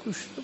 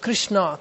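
First: The name is murmured indistinctly. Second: The name is said distinctly and joyfully. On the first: The speaker calls it wrong. "Not murmuring, Krishna, Krishna, not like that" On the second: The speaker calls it right. "He chanted very distinctly, very clearly. Right? Krishna, Krishna, like that"

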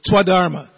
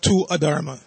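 First: The vowel glides straight into the next word. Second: The two words are said as separate words. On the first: The speaker calls it right. "you run it into the next word" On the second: The speaker calls it wrong. "It's not"

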